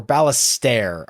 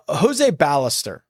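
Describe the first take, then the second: First: Ballester ending in a full "stair"; alternative pronunciation. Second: Ballester ending in an unstressed "ster"; anglicized Ballester with a weak last syllable; first pronunciation. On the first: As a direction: say Ballester like "bal-ess-STAIR", slowly. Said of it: "I believe is how he might pronounce that". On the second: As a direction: say Ballester like "BAL-ess-ter", slowly. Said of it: "how he might pronounce that". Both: Shown as a demonstration.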